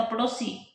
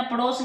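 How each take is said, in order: First: पड़ोसी said as padosi, ending in a long i; right form. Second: पड़ोस said as pados, no final i; wrong form. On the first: Teacher giving students the correct form, पड़ोसी as padosi. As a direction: end पड़ोसी on a clear long i. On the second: Teacher warning students against the wrong form, पड़ोस as pados. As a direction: cut पड़ोस off short at the s. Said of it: "पड़ोस नहीं होता". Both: Shown as a demonstration.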